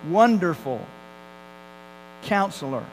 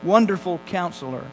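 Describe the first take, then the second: First: There is a pause between the two words. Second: The two words run together without a pause.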